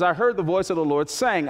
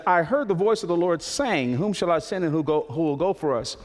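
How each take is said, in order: First: Heard leaned on, falling; stress on heard. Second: Said in the usual way. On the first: Shown as a demonstration. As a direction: put the weight on the word heard. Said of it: "the emphasis, "I heard the voice of the Lord saying". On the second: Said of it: "the emphasis".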